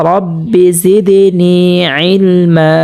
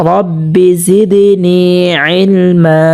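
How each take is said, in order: Both takes have the same delivery.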